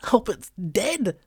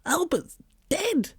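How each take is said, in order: First: Slow, higher mournful whine; dog whining to Susie. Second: Much higher, slow drawn-out whine; dog whining a second time, higher. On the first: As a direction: whine it out slowly. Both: A narrator's reading. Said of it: "I whine at her".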